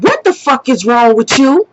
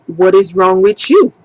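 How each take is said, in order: First: Retold indignant demand in her own accent; angry confrontation. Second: Lightly imitated Haitian accent, lower pitch. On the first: Woman confronting the man standing in the store, indignant. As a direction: confront him with rising disbelief. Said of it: "I'm going off on him". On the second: Woman mimicking the man who stared at her, mild Haitian accent. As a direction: mimic his Haitian accent low and even. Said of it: "he got an accent".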